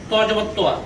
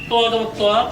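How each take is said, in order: No difference in how they are said.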